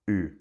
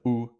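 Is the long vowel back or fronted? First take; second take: fronted; back. First: The long u vowel is fronted, Ulster style. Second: The long u vowel is back, Munster-Connacht style.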